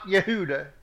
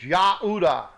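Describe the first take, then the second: First: The first vowel is an e sound. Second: The first vowel is an a sound. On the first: The speaker calls it wrong. "It's not Yehuda" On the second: The speaker calls it right. "It's Yahudah"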